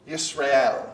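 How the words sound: The name is said with a Hebrew pronunciation. "a more uh, appropriate Hebrew pronunciation"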